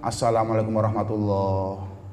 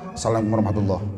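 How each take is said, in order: First: It is said slowly. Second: It is said quickly.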